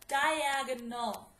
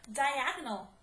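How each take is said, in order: First: Diagonal said slowly, each syllable clear; slowed for spelling. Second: Said in the usual way. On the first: Shown as a demonstration. Teacher to students spelling it out, Diagonal said slowly. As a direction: stretch out Diagonal so the class can hear every part. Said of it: "So let's write it". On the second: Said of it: "Let's do another one".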